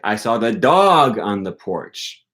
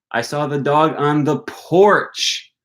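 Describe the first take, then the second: First: The stress falls on the word dog. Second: The stress falls on the word porch. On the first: It was the dog, not some other animal. "I didn't see the cat on the porch" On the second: The dog was on the porch, not elsewhere. "I didn't see the dog on the patio"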